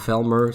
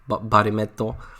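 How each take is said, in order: First: The name is short and ends in a consonant. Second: The name has added vowels and ends in a vowel. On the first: This is the proper pronunciation. The speaker calls it right. "would be the proper way of saying it" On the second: This is how the show pronounces it. The speaker calls it wrong. "is how they pronounce it for some reason"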